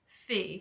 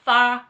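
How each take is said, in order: First: The vowel sounds like the word 'see'. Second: The vowel sounds like the word 'eye'. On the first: The speaker calls it right. "It is Fee" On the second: The speaker calls it wrong. "my southern ass pronounced that title wrong"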